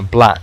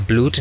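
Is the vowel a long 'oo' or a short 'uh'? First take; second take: short uh; long oo. First: The vowel is a short 'uh' sound. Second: The vowel is a long 'oo' sound. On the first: The speaker calls it right. "sino blood" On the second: The speaker calls it wrong. "no se pronuncia blood ni nada por el estilo"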